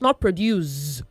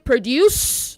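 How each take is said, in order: First: The word ends with a Z sound. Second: The word ends with an S sound. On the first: The speaker calls it wrong. "not D U Z E" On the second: The speaker calls it right. "It is P R O D U C E"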